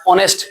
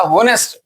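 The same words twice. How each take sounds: First: ऑनेस्ट with no H; real pronunciation. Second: हॉनेस्ट with the H sounded; childhood misreading. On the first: Teacher giving the real reading, ऑनेस्ट with silent H. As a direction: begin ऑनेस्ट straight on AW. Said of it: "real में इसको पढ़ा जाता है". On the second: Teacher quoting a common mistake, हॉनेस्ट with H. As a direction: start हॉनेस्ट on HAW. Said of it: "बचपन में इसको हॉनेस्ट पढ़ते थे". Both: Shown as a demonstration.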